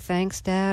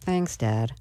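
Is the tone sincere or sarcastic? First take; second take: sincere; sarcastic. First: It sounds sincere and grateful. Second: It sounds sarcastic and eye-rolling.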